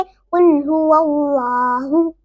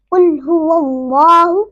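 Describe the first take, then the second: First: Slow कुल हुवल्लाहु with a light, thin laa; wrong thin recitation. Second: कुल हुवल्लाहु with a full, rounded laa; correct heavy recitation. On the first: Teacher shows the mistake to learners, thin हुवल्लाहु. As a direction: keep the L of हुवल्लाहु light and unrounded. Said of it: "इस तरह नहीं पढ़ेंगे". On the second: Teacher gives an example of the rule, heavy हुवल्लाहु. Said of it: "हम इसको इस तरह पढ़ेंगे". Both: Shown as a demonstration.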